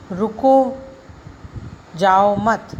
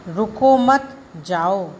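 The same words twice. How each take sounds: First: "रुको", a long pause, then "जाओ मत" together; pause after रुको. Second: "रुको मत" run together, a pause, then "जाओ"; pause after मत. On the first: Teacher showing how a comma changes meaning, pause after रुको. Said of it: "रुको के बाद कॉमा लगाने से". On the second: Teacher showing the comma moved, pause after मत in रुको मत, जाओ. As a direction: slowly join रुको मत, break, then जाओ. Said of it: "रुको मत" के बाद कॉमा लगाने से". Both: Shown as a demonstration.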